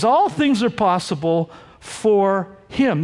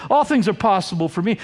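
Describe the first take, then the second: First: Slowing into "for him", "him" set apart; deliberate, drawn-out "for him"; stress on HIM. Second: Said in the usual way. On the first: Shown as a demonstration. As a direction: pause and land on "him". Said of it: "Jesus says". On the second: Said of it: "Jesus pointedly does not say".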